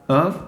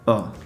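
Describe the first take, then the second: First: The word is reduced to a short 'of' sound. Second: The word is reduced to a bare 'uh' vowel. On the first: "might be pronounced of" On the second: "or even just uh"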